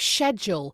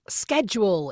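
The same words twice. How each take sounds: First: It is said with a British pronunciation. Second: It is said with an American pronunciation. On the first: This is the speaker's original home way. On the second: This is the local way where the speaker now lives.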